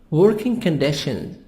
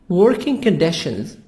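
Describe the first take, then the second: The two takes are said the same way.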